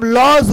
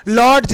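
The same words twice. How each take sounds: First: Silent d in लॉज; correct pronunciation demo. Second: D sounded in लॉर्ड्स; wrong pronunciation demo. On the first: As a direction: say लॉज as loj, without d. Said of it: "इसको हम लॉज बोलते हैं". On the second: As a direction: say लॉर्ड्स with an audible d, lod-j. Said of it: "नहीं". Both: Shown as a demonstration.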